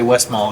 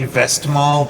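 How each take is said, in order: First: It is said with an American pronunciation. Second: It begins with a local 'vest' sound. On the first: "because we're Americans, we can just say Westmalle and get away with it" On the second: "it would be vest something, so it'd be Vestmalle probably"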